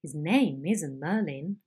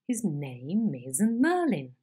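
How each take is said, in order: First: A series of falls, each accent starting lower; emphatic sliding fall; sliding head. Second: Slow, emphatic climbing tune; climbing head. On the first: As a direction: slide down on every stressed word of "His name isn't Merlin". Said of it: "Sliding head". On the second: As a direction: climb up on every stressed word of "His name isn't Merlin". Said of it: "And climbing head". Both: Shown as a demonstration.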